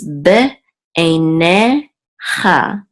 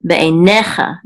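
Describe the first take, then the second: First: BE, EINE, CHA slowly with gaps; syllable by syllable. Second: Be einecha joined up, NE punched; stress on NE. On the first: Teacher introducing a Hebrew word, be einecha broken into slow syllables. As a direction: sound out be einecha in slow separate pieces. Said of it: "this is be einecha". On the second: Teacher showing where the accent falls, stress on NE in be einecha. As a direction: hit the NE in be einecha. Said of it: "the accent is on ne". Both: Shown as a demonstration.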